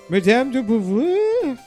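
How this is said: It is said in a put-on French accent. "full space French"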